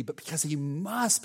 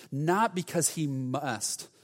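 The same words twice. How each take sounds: First: "must" lifted with a rising tune; compelled must. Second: Slow "must" with a falling tune; dutiful must. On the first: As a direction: push "must" upward, as an inner urge. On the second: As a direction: let "must" fall heavily, as a duty. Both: Shown as a demonstration. Contrasts duty with compelling love.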